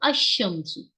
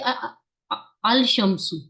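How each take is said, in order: First: The l is silent and the sh is doubled. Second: The l of the article is clearly pronounced. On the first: The speaker calls it right. "I will say अशम्सु" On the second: The speaker calls it wrong. "I can not से अल शम्सु"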